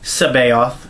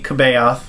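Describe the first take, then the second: First: The name begins with an S sound. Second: The name begins with a hard K sound. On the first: This is the intended pronunciation of the name. The speaker calls it right. "It's Sabaoth" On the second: This is how English spelling rules would read it. The speaker calls it wrong. "by English pronunciation conventions would be"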